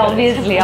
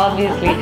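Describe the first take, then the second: Both takes have the same delivery.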